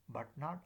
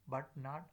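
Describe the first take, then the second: The two takes are said the same way.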